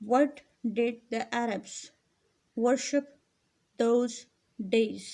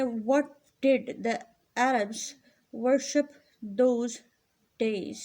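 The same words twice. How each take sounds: First: Slow, measured reading of the question. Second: Each word set apart with pauses; slow dictation. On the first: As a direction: read it again slowly for the pupils. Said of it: "repeats question for class". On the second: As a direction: read it out word by word for the class. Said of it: "reads question slowly word by word". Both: Shown as a demonstration.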